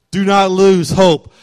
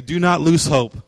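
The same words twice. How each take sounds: First: Slower and louder, pressing "lose"; emphatic louder repeat. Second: Said in the usual way. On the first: Shown as a demonstration. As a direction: drive it home, slow and loud.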